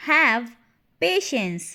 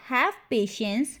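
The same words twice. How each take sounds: First: A firm "Have", pause, then "patience"; word by word. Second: Said in the usual way. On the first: Shown as a demonstration. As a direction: split "Have patience" into two separate words. Word-by-word repeat for learners. ("Have patience" रुक-रुककर, शब्द अलग-अलग)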